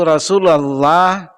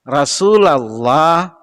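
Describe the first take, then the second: No difference in how they are said.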